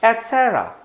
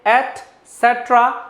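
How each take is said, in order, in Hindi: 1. इस शब्द में साइलेंट लेटर छोड़ दिया जाता है। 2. इस शब्द में साइलेंट लेटर का उच्चारण होता है। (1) "जो ये लेटर है साइलेंट है" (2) "की जगह"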